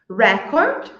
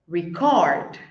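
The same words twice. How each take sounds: First: The stress is on the first syllable. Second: The stress is on the second syllable. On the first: It is used as a noun. "a primeira coluna ali é o substantivo" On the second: It is used as a verb. "a segunda é o verbo"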